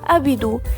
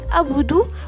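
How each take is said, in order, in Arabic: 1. تُسمع حركة i بين b و d. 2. تُسمع حركة u بين b و d. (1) "بالكسرة" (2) "بالضمة"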